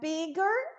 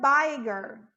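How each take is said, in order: First: The i vowel is short, like in 'big'. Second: The i vowel is long, like in 'bite'. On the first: The speaker calls it right. "ao invés de pronunciar bigger" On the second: The speaker calls it wrong. "eu tenho um E que vai modificar o som da vogal anterior"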